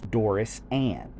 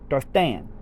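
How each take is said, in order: First: Each part of the name is said clearly and separately. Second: The name is run together with a lisped th sound. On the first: "I'm over pronouncing the Doris for your sake" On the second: "there was a slight lisp to it"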